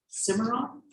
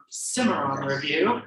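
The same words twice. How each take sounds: First: "Cimarron?" asked with a high, rising question tune; checking the name "Cimarron?" with a questioning lift; unsure question. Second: Said in the usual way. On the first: Real, not acted. Host reading poetry credits, unsure of the name, asking.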